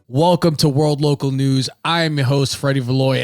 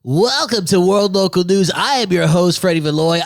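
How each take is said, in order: First: It is said in his normal voice. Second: It is said in a daytime radio-DJ voice.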